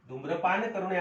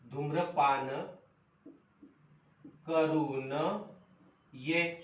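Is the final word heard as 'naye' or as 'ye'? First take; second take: naye; ye. First: The break falls before 'naye', after 'karu'. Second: The break falls before 'ye', after 'karun'. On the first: Smoking should not be done. "धूम्रपान करू नये असा विराम किंवा असं हे उच्चार केलेला आहे" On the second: Come back after smoking. "पण हेच वाक्य जर मी असं म्हटलं धूम्रपान करू न ये, वाक्याचा अर्थ बदलला"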